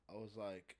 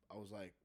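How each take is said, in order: Both takes have the same delivery.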